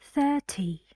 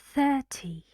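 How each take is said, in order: First: The middle consonant is a clear t sound. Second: The same.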